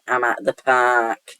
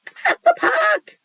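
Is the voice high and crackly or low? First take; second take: low; high. First: The voice is low and steady. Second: The voice is high and crackly.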